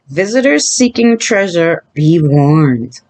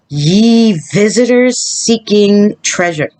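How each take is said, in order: First: It is said in a plain, normal voice. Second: It is said in a put-on pirate voice.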